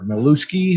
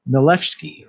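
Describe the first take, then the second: First: [name] with an "oo" in the middle, muh-LOO-skee; alternative pronunciation. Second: [name] with an "eh" in the middle, muh-LEF-skee; correct pronunciation. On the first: Host unsure of a musician's surname, [name] pronounced muh-LOO-skee. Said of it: "however it's pronounced". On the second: Host trying a guest musician's surname, [name] pronounced muh-LEF-skee. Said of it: "I had it right the first time". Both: Shown as a demonstration.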